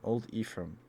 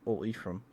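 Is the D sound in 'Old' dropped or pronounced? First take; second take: pronounced; dropped. First: The D at the end of 'Old' is pronounced. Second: The D at the end of 'Old' is dropped.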